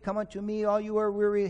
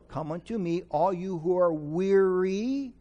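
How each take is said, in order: First: It is said at a faster pace. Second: It is said at a slower pace.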